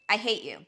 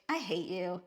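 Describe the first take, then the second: First: It is said with cold, hostile disdain. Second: It is said in a teasing, affectionate way. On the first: The speaker truly dislikes the person. "the first one, you're displaying like actual disdain for a person" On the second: The speaker is joking and feels affection. "I hate you in a jokingly loving"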